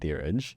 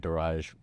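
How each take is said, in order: First: The name is said the original Punjabi way. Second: The name is said the anglicized, English way. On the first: This is how the name is said in Punjabi. "how you pronounce it in Punjabi" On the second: This is how the name has been said since moving here. "I usually go by"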